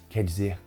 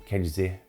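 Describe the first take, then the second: No difference in how they are said.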